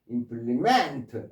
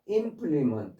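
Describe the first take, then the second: First: The stress is on the last syllable. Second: The stress is on the first syllable. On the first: It is a verb meaning to complete. "뒤에 강세에 있어서 동사가 될 때 implement" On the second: It is a noun meaning a tool. "implement 앞에 강세가 있어서 implement 할 때는 기구 또는 도구"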